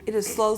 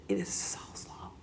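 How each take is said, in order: First: Said in the usual way. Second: Soft whispered emphasis. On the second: Real, not acted. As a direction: drop to a whisper to make it land. Stressing how slow progress is.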